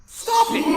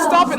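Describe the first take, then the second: First: High pleading cry to stop it; shrill plea. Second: Loud, high shout to stop it; desperate shout. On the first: Daryl begs the voice in his head to stop, high desperate cry. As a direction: cry out high, begging it to end. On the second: Daryl shouts at the voice in his head, loud and desperate. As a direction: bark the order at the voice. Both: Acted.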